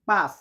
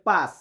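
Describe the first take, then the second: The two takes are said the same way.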